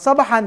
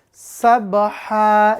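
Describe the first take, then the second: First: The word ends with an n sound. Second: The word ends with a long a sound. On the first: The speaker calls it wrong. "bukan sabahan" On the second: The speaker calls it right. "tapi sabha"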